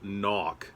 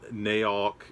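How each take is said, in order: First: The vowel sounds like the one in sock. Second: The vowel sounds like the one in cow. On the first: The speaker calls it right. "It is Todd Knock" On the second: The speaker calls it wrong. "It is not Naok"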